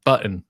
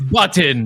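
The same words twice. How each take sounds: First: The t sound in the middle is dropped. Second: The t sound in the middle is pronounced. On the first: "I leave out the T, like button" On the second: "people are like, what are you saying? Button? It's, it's button"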